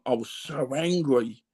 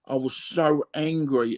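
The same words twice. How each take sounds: First: Slow, with "angry" leaned on and falling; "I was so ANGRY", the word angry weighted and dropping; stress on angry. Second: Slow, with "so" pushed hard before a falling "angry"; "I was SO angry", the weight moved onto so; stress on so. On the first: Admitting his anger to the host, "angry" stressed. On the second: Repeating it to the host, "so" stressed. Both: Real, not acted.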